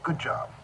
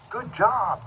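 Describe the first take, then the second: First: It is said in a calm, low-energy voice. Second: It is said in an excited, high-energy voice. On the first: It keeps the listener settled. The speaker calls it right. "So I'll just go" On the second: It gets the listener worked up. The speaker calls it wrong. "when you say it like that, they'll get excited"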